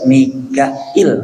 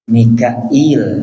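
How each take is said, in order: First: No long ee vowel comes before the final l. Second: A long ee vowel comes before the final l. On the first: "Wa bi ukhra bila ya" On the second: "Bihamzin wa ya"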